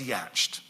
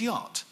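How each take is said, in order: First: The word is said sounding out every letter. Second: The word is said with its usual pronunciation.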